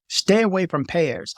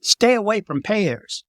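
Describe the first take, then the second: First: Said in the usual way. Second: Slow, every word pressed; slow emphatic warning. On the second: Real, not acted. Warning tourists away from pairs, slow and firm. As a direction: drive the warning home.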